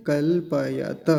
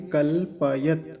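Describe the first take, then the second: First: कल्पयत slowly, ending on a full त with its vowel; final ta voiced. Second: कल्पयत slowly, closing on a bare त; stop on the t. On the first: Teacher showing how it would sound without halant. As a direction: let the last त carry a vowel. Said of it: "हलंत नहीं होता तो क्या बोलते". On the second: Teacher modelling the correct halant ending. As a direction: cut the word at the त. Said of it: "लेकिन अभी क्या बोलेंगे". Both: Shown as a demonstration.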